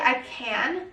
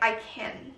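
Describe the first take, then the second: First: It is said at a normal, unhurried pace. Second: It is said quickly and rushed.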